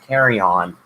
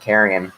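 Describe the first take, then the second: First: It sounds like the two words 'carry on'. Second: It sounds like the single word 'carrion'. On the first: The speaker calls it wrong. "his pronunciation carry on" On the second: The speaker calls it right. "instead of carrion"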